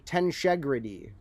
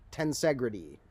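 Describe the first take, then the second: First: The middle consonant is an 'sh' sound. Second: The middle consonant is a plain 's' sound.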